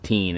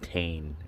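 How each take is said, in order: First: The vowel sounds like 'ee'. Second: The vowel sounds like 'ay'. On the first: This is how the speaker used to think it was said. The speaker calls it wrong. "I thought it was teen" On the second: This is how others in a video say it. The speaker calls it right. "they're pronouncing it Tane"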